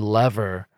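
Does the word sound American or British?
American. The word is said with an American pronunciation. The speaker calls it right.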